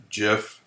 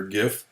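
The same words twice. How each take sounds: First: "gif" with a soft g, like a j. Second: "gif" with a hard g, as in gift. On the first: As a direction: say "gif" as if spelt jif. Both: Shown as a demonstration. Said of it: "depending on who brought you up".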